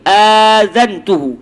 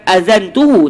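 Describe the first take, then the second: First: The first vowel is long. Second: The first vowel is short. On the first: The speaker calls it right. "dibaca panjang" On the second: The speaker calls it wrong.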